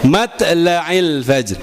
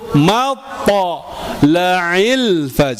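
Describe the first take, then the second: First: The t is thin, without opening the mouth. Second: The t is heavy, with the mouth opened wide. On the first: The speaker calls it wrong. "Huruf ta dia nggak akan mangap" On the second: The speaker calls it right. "Huruf to dia akan mangap dulu"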